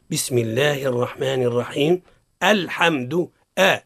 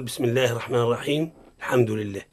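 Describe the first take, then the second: First: A clear glottal stop on "الحمد" after a pause; correct hamza. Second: "الحمد" with the hamza dropped, run straight on from "الرحيم"; wrong hamza. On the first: (تحقيق همزة الوصل عند الابتداء) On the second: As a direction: join "الرحيم الحمد" with no glottal stop. (وصل دون تحقيق الهمزة) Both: Shown as a demonstration. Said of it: "الصواب هو".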